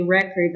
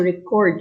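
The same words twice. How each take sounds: First: Noun record, REC strong; stress on first syllable. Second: Verb record, CORD strong; stress on second syllable. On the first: Teacher reading the noun example, record stressed on first syllable. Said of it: "the noun is stressed on the first syllable". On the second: Teacher reading the verb example, record stressed on second syllable. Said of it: "the verb is stressed on the second syllable". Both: Shown as a demonstration.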